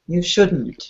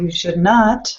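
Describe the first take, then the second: First: Contracted form, with the stress on should. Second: Full form, with the stress on not. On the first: "Shouldn't, you stress should" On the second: "So should not, you stress not"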